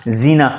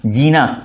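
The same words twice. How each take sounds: First: जीना said with a z sound, the nukta ज़; जीना, ज़ as in zoo; zeena with z. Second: जीना said with a plain j sound, no nukta; जीना, ज as in jam; jeena with j. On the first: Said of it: "जब आप नुक्ता लगा देते हैं". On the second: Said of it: "ये है जीना". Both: Shown as a demonstration.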